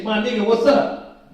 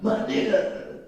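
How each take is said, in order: First: A loose, slangy hey-what's-up, a touch louder; casual street greeting. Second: Same greeting said under the breath; whispered aside. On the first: Teacher mimics the greeting kids should avoid, casual and upbeat. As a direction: toss it off like greeting a friend on the corner. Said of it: "But you don't just say". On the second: Teacher repeats the slang greeting as a hushed whisper. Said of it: "We don't talk like that". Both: Retold or imitated.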